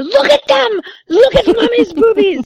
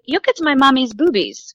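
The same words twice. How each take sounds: First: Very high-pitched imitation of an insistent little kid; mock toddler shout, high and insistent; louder toddler. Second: Put-on slightly raised little-kid announcement; matter-of-fact toddler, retold. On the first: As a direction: pipe up louder, like a toddler demanding attention. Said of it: "the more she said louder". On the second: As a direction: lightly imitate a two-year-old piping up. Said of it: "She was two years old".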